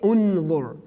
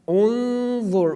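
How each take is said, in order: First: The N is pronounced clearly and fully. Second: The N is hidden in a nasal sound. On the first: The speaker calls it wrong. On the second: The speaker calls it right.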